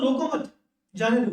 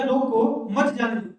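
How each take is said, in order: First: रोको मत run together, pause, then जाने दो; pause after मत. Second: रोको, then a clear pause before मत जाने दो; pause after रोको. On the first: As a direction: hold the break until after मत, then release जाने दो. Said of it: "कह रहा हूँ कि इसको रोको मत". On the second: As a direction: break after रोको, keep मत joined to जाने दो. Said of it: "मैं इसको कह रहा हूँ रोको उसको". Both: Shown as a demonstration.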